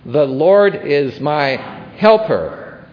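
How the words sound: The word "helper" carries the strongest stress.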